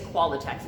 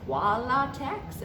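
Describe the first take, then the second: First: The word is pronounced in the ordinary way. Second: The word is pronounced in a strange, distorted way. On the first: This is the actual brand name. The speaker calls it right. "what he's saying is Qualatex" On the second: This is how the customer mangled the name. The speaker calls it wrong. "pronounce it all weird"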